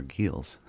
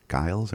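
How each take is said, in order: First: Giles said as "geels", long ee; second pronunciation option. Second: Giles with an "eye" vowel; first pronunciation option. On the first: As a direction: say Giles to rhyme with "feels". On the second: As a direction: say Giles to rhyme with "miles". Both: Shown as a demonstration. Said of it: "what will you get out of that".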